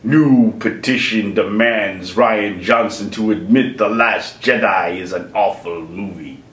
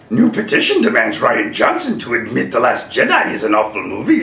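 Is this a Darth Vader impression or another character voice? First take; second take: Darth Vader; other character. First: It is read in a second put-on character voice. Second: It is read in a first put-on character voice. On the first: "Maybe I'll do that as Darth Vader" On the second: "Maybe I should read this in a Star Wars-y way"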